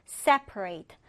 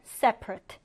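First: "separate" with a clear long A at the end; verb pronunciation. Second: "separate" with the last syllable reduced to rət; adjective pronunciation. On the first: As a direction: pronounce "separate" as the verb, SEP-uh-rate. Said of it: "분리하다라고 할 때는". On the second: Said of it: "형용사로 쓸 때는". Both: Shown as a demonstration.

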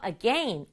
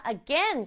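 First: "again" said as uh-GEN; "again" ending like "ten"; again rhyming with pen. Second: "again" said as uh-GAIN; "again" ending like "gain"; again rhyming with rain. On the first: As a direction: say "again" with a short E in the second syllable. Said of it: "again이라고 발음하는 사람도 있어요". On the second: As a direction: say "again" with a long AY in the second syllable. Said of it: "사람에 따라서". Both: Shown as a demonstration.

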